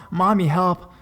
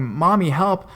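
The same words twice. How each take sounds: First: High, loud repeated call; crying for help again. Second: High, loud call for mom; crying for help. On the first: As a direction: keep calling for mommy, louder. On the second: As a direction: call out for mommy, panicked. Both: Retold or imitated. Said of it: "She says I kept go-, going".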